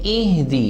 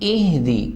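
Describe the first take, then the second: No difference in how they are said.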